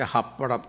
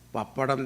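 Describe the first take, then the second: First: The word begins with an H sound. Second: The word begins with a P sound.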